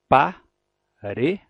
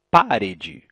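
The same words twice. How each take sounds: First: Parede slowly, leaning on the middle syllable re, pa-REE-de; teacher demo: parede said slowly, dwelling long on re; stressed syllable drawn out. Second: Parede said slowly and louder, stress deliberately moved off the re; mock mistaken parede, loud and slow with a misplaced stress; wrong stress on purpose. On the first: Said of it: "a gente pronuncia por mais tempo e com mais força". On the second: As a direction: say parede the way no native would, stressing the wrong syllable. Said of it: "Nenhum falante da língua vai dizer". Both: Shown as a demonstration.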